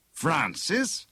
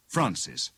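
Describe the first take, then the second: First: "Francis" higher, with a rising questioning tune; querying. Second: Said in the usual way. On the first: A narrator's reading. Bogus inspector doubts the signature, querying "Francis" on a rise. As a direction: lift "Francis" into a suspicious question. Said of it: "queried the bogus inspector".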